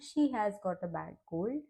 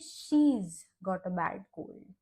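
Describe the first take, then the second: First: 'She has' is said as two full words. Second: 'She has' is contracted into one word. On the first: "लिखते वक्त लिखा जाता है" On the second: "बोलते वक्त हम कहेंगे"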